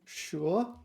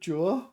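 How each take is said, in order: First: The word begins with an sh sound. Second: The word begins with a j-like sound. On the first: The speaker calls it right. "it's in the dictionary as sure" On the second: The speaker calls it wrong. "I've always called it Jur"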